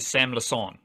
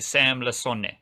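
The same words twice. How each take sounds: First: The final vowel of the surname is silent. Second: The final vowel of the surname is sounded. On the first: The speaker calls it wrong. "You do not say Sam Lasone" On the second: The speaker calls it right. "You say Sam Lasone"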